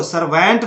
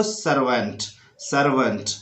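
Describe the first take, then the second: First: सर्वेंट with an open e in the middle; wrong pronunciation. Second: सर्वेंट with a short uh in the middle; correct pronunciation. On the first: Teacher mimics the wrong way, ser-vent. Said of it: "बोलते थे वो गलत था". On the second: Teacher shows the right way, ser-vunt. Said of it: "अब बोल रहे हैं आपको". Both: Shown as a demonstration.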